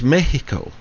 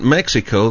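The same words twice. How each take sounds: First: Mexico is said with a Spanish pronunciation. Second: Mexico is said with an English pronunciation. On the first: The speaker calls it right. "that's Mexico" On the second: The speaker calls it wrong. "that's not Mexico"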